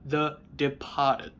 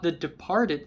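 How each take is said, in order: First: It is said in a Boston accent. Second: It is said in a general American accent. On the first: The speaker calls it right. "in a Boston accent" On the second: The speaker calls it wrong. "not The Departed"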